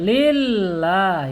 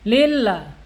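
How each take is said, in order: First: The double l is pressed, held and broken. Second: The double l runs on smoothly without a hold. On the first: The speaker calls it right. "Dihentak dan ditahan" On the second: The speaker calls it wrong. "tidak boleh lillah"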